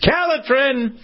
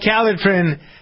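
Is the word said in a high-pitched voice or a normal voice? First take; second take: high-pitched; normal. First: It is said in a loud, high-pitched announcer voice. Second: It is said in a plain, normal speaking voice.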